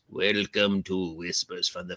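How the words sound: It is read in a put-on spooky voice.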